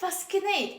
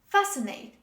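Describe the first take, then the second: First: A k sound is pronounced after the s. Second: No k sound is pronounced after the s. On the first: The speaker calls it wrong. "Don't say fascinate" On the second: The speaker calls it right. "This is fascinate"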